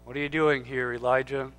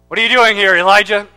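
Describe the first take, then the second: First: The question sounds gentle and kind. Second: The question sounds stern and accusing. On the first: The asker speaks with tender care. "Or was it gentle?" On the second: The asker rebukes the listener as foolish. "Foolish man"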